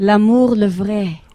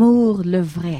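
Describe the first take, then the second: First: L'amour le vrai with French throaty R's; French pronunciation. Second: L'amour le vrai with guttural French R's. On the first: Host asks singer to repeat the French, throaty R's. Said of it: "Say that again". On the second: Host asks her again, French throaty R's. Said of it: "You got the R's there". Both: Shown as a demonstration.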